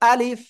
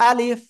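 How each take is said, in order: Both takes have the same delivery.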